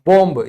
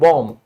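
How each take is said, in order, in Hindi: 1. अंत वाली b की आवाज़ बोली जाती है। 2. अंत वाला b साइलेंट है, बोला नहीं जाता। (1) "ये बिल्कुल गलत है दोस्तों" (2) "इंग्लिश में इसको सिर्फ और सिर्फ क्या कहेंगे?"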